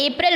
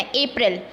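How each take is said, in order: First: अप्रैल said the English way, ay-prel; English pronunciation of अप्रैल; correct April. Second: अप्रैल as English ay-prel; teacher modelling अप्रैल in English; correct April. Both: Shown as a demonstration. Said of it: "अप्रैल बोलना है".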